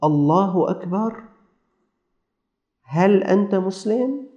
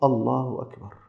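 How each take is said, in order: First: Slow, tentative questioning lift; a hint of halting, questioning speech; lightly voiced stranger. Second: Soft, falling reply; hushed answer with a falling end; lightly voiced sheikh. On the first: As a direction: imitate a stranger's slow greeting, rising at each end. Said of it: "ويقول له". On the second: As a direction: imitate a sheikh answering quietly, voice settling down. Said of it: "قال الشيخ".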